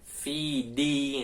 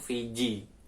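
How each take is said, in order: First: The second consonant is a d sound. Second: The second consonant is a j sound. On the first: The speaker calls it right. "itu bukan Fiji" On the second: The speaker calls it wrong. "seringkali banyak yang salah itu fiji"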